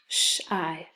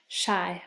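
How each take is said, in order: First: "Shy" split into sh, pause, long i; tapped out. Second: Said in the usual way. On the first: Shown as a demonstration. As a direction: break "Shy" into its two sounds. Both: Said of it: "have you tap it out".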